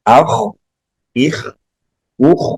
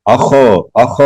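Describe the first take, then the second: First: "اخ" with a gentle trailing kh, no vowel after; soft kha. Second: "اخ" forced, with an added "o" after the kh; wrong hard kha. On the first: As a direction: release the kh of "اخ" softly as breath. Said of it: "نرمی سے". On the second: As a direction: wrongly bounce "اخ" into "akho". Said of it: "ایسے نہیں کریں گے". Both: Shown as a demonstration.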